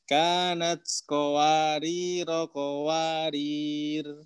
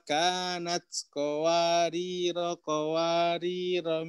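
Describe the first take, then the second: First: The last word ends on a consonant, vowel dropped. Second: The last word keeps its final vowel and continues. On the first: The reading pauses after this word. "itu wasol ya dengan wakof kowarir yang kedua" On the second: The reading continues without pausing. "kalau mau diwasal semua"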